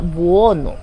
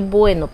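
First: The name is said with a 'buo' sound. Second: The name is said with a 'bue' sound. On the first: "parece que se pronuncia Buono, algo así" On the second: "Yo lo llamo Filodendro José Bueno"

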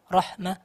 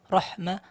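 The two takes are said the same way.

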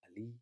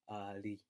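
First: The vowel is short. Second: The vowel is drawn out long. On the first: The speaker calls it wrong. "it shouldn't be pronounced as" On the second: The speaker calls it right. "it's actually elongated"

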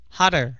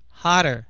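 Both takes have the same delivery.

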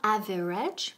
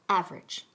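First: The word is said with three syllables. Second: The word is said with two syllables. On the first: The speaker calls it wrong. "No average" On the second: The speaker calls it right. "Se quedan en dos sílabas"

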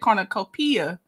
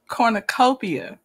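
First: The stress falls on the syllable 'pi'. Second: The stress falls on the syllable 'co'. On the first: The speaker calls it wrong. "You just put an emphasis on the P. You said cornucopia" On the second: The speaker calls it right. "What's the right way to say it again? Say it one more time"

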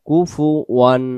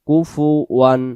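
Both takes have the same delivery.

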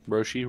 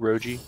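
First: The middle consonant is an 'sh' sound. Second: The middle consonant is a 'j' sound. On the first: The speaker calls it wrong. "you mispronounce his name" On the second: The speaker calls it right. "Yeah, Roji. I don't see no SH"

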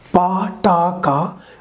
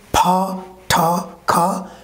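First: The consonants are said without a puff of air. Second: The consonants are said with a puff of air. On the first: The sounds come after the first letter of a word. "which are called unaspirated sounds" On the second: The sounds come at the beginning of a word. "means aspirated sound"

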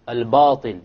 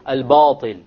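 First: The long a vowel is heavy and full. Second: The same.

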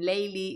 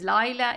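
First: The name is said in its Iranian form. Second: The name is said in its Arabic form. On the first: "Layli is the way the Iranians pronounce it" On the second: "Layla is the Arabic name"

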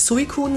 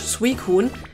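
First: The name is pronounced in a German style. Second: The name is pronounced in an English style. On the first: "Dann gibt es Leute wie mich, die gerne eigentlich Suicune sagen" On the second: "Oder halt komplett Englisch"

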